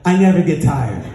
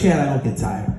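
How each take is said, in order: First: Meaning it. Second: Low, drained mumble of defeat; broken, unconvinced. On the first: Exhausted runner gives in to his partner's demand, meaning it. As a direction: give in and say it with conviction, still pitched low. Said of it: "Say it like you mean it". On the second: Broken runner obeys his partner at mile seventy-four, unconvinced. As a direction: repeat it without believing it, pitched way down. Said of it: "But I was so broken, I couldn't say it". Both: Retold or imitated.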